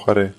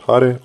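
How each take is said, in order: First: Hare with the final syllable stressed, ha-RE; stress on last syllable. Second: Hare with the first syllable stressed, HA-re. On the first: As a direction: push the end of Hare. (second option, ha-RE) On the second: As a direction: hit the HA of Hare. (first option, HA-re) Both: Shown as a demonstration. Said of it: "what's the proper way to chant".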